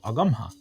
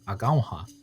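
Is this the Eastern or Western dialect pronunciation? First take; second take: Eastern; Western. First: It is said in the Eastern dialect without a diphthong. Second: It is said in the Western dialect with a diphthong. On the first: "for Akwesasne and other Eastern dialects, you may hear it pronounced more closer to Agamha" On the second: "for the Western dialects, we have Agaunha"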